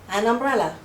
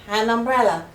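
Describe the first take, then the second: No difference in how they are said.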